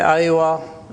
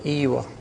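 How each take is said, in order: First: It is said the city way, starting with 'ai'. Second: It is said the countryside way, starting with 'ee'.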